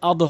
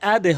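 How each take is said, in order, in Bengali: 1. শেষ ব্যঞ্জনটি কোনো প্রতিধ্বনি ছাড়াই থেমে যায়। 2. শেষ ব্যঞ্জনটি একটি ছোট 'e' প্রতিধ্বনি নিয়ে ফিরে আসে। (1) "আদ হবে না" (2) "আদে হবে"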